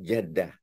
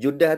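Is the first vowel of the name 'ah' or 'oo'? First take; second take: ah; oo. First: The first vowel sounds like 'ah'. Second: The first vowel sounds like 'oo'. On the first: The speaker calls it right. "Yang tepatnya" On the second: The speaker calls it wrong. "kurang tepat"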